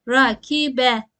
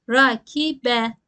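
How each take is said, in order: Both takes have the same delivery.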